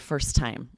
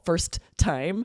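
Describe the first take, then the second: First: One T is dropped and the words link. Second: Both T sounds are pronounced separately. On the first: The speaker calls it right. "We drop one of them and we say first time. We link them together" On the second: The speaker calls it wrong. "would take too long and would be too difficult, sounds very unnatural"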